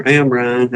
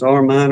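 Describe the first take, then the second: First: Amrine, with the m before the r; second name variant. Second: Armine, with the r before the m; first name variant. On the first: Unsure of the doctor's name, offering Amrine as the alternative pronunciation. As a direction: say it "AM-rine", r after the m. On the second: Unsure of the doctor's name, offering Armine as one pronunciation. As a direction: say it "AR-mine", r first. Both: Shown as a demonstration. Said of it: "however you say his name there".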